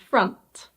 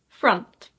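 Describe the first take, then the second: First: The vowel sounds like the U in cup. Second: The same.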